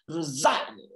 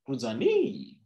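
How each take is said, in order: First: It is said with a put-on Russian accent. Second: It is said with a put-on French accent. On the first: "I don't even know if I've gotten the accent right" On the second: "with a French accent"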